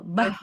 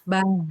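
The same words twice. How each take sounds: First: The consonant is pressed hard and forcefully. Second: The consonant is pressed lightly so the sound flows. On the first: The speaker calls it wrong. "Kalau bah, bih, buh itu kan kuat. Jangan kuat" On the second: The speaker calls it right. "dia lemah tekanannya sehingga bisa mengalir"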